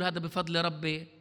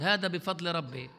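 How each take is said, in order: First: مدّعٍ ساخر. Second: تقليد ساخر؛ "هذا بفضل ربي" بنبرة أخف وأبطأ تهكماً بمن يدّعي التواضع؛ قلّدها كمن يضحك على الناس؛ سخرية خفيفة من الادعاء. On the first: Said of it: "نبني عمارة ونقول". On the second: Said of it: "بلاش نضحك على بعض". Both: Retold or imitated.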